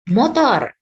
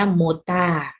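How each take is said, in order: First: It is said with English sounds ending in r. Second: It is said Japanese-style ending in long a.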